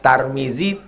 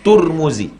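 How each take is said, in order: First: The first syllable has an a vowel. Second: The first syllable has a u vowel.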